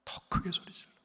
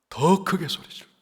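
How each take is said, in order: First: 더 크게 소리 질러 breathed in a hushed whisper. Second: Raised, urgent call of 더 크게 소리 질러; urging cry. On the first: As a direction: drop 더 크게 소리 질러 to a whisper. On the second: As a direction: call 더 크게 소리 질러 out boldly. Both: Shown as a demonstration. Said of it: "주눅 들지 않았어요".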